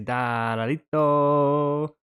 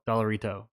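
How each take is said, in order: First: It is said with a Spanish-sounding accent. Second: It is said with a flat English-sounding accent. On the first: The speaker calls it right. "You gotta say Dollarito" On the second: The speaker calls it wrong.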